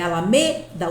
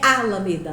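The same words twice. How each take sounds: First: The stress is on the third syllable. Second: The stress is on the first syllable. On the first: The speaker calls it right. "É alameda, o me é forte" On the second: The speaker calls it wrong. "Não é alameda, não vou grifar o A"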